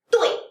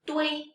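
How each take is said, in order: First: "dui" short, starting high and falling sharply; fourth tone. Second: Said in the usual way. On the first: Shown as a demonstration. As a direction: drop "dui" fast from the top. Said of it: "this is the fourth tone". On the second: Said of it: "De, wei".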